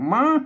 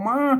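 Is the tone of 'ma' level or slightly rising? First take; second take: rising; rising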